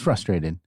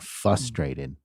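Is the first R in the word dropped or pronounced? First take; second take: pronounced; dropped. First: The first R sound is pronounced. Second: The first R sound is dropped. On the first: The speaker calls it right. "it's frustrated" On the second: The speaker calls it wrong. "people pronounce it without the first R"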